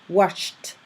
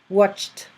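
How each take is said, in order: Both takes have the same delivery.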